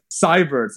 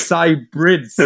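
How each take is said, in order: First: "Cybirds" misread with plain "birds" at the end; misread pronunciation. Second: "Cybrids" with the r straight after the b; corrected pronunciation. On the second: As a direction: say "Cybrids" as SIGH-brids. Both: Shown as a demonstration. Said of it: "I read it like Cybirds".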